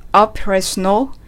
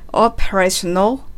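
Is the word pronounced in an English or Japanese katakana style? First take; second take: English; English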